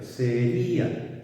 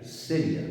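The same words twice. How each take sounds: First: Sería slowed right down, stress landing on the í: se-RÍ-a; three-syllable sería. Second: "seria" quick, stress on SE, the ia glided into one syllable: SE-rja; two-syllable seria. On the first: Teacher showing students the hiatus, slow se-RÍ-a. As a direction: draw out "sería" so the í stands alone as its own syllable. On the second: Teacher contrasting for students, quick SE-rja diphthong. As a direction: clip "seria" so i and a merge into a diphthong. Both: Shown as a demonstration. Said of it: "fijaos la diferencia".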